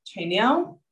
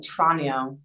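First: Tranio said TRAY-nio with an ay vowel; mispronounced name. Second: Tranio said TRAH-nio with a broad ah; corrected name. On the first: Real, not acted. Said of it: "Tranio, yeah". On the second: Shown as a demonstration. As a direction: say Tranio as TRAH-nee-oh, slowly. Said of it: "Oh, Tranio".

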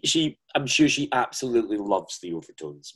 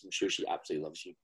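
First: Said in the usual way. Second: Softer and quicker, a sly throwaway; teasing aside. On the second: Acted. Host teasing the guest about the Queen, a soft fast aside. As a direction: toss it off under your breath.

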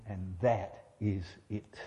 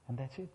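First: Slow, low, each word of "And that is it" set apart; deliberate emphasis. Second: Said in the usual way. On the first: Shown as a demonstration. Preacher saying it again to really mean it, slow emphasis. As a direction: drop low and weigh "that is it" word by word. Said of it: "I really do mean". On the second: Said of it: "Let me say that again".

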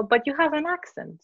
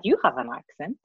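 First: Said in the usual way. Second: YOU picked out in "you have an accent"; stress on YOU. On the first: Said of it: "then they'll say". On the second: Shown as a demonstration. Her comeback to the questioner, stress on YOU. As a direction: turn it back on them, leaning on YOU. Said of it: "And then what I say is".

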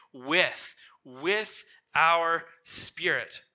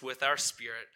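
First: "with" said twice, slow and emphatic; stress on WITH. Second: Said in the usual way. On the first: Shown as a demonstration. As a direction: hammer "With", pause, repeat it and draw out the phrase. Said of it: "what does it say?".

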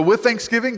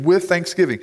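First: "with thanksgiving" lifted higher, set apart; stress on thanksgiving. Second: Said in the usual way. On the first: Shown as a demonstration. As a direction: lean hard on "thanksgiving" to single it out. Singling out the verse phrase.

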